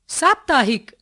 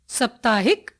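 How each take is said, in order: First: साप्ताहिक with long first aa; correct long first vowel. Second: साप्ताहिक with short first a; wrong short first vowel. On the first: Teacher giving the correction, साप्ताहिक with long aa. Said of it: "उनके शुद्ध रूप". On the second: Teacher showing a common error, साप्ताहिक with short a. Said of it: "कुछ सामान्य अशुद्धियां". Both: Shown as a demonstration.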